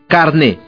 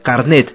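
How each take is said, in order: First: The word ends on a vowel, no t. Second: The word ends with an audible t sound. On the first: This is the currently accepted form of the word. "se pronuncia como se escribe" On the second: This is the older form of the word. "Originariamente esta palabra se escribía con una T al final y se pronunciaba carnet"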